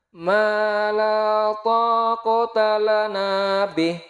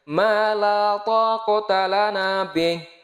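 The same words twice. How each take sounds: First: It is recited at a somewhat slower tempo. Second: It is recited at a fluent, faster tempo. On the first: "kita turunkan temponya" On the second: "itu kalau kategorinya lancar"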